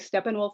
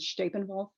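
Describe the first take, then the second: First: It is pronounced with English sounds. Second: It is pronounced with German sounds. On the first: "Most people say Steppenwolf" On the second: "I use the German pronunciation"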